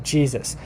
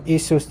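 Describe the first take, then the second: First: The word starts with a J sound. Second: The word starts with a vowel I sound. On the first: This is the later pronunciation. "it has a J sound" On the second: This is the older pronunciation. "Jesus was probably pronounced like Isus"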